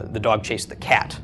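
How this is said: The word cat is stressed. It was the cat, not something else, that got chased. "by emphasizing cat"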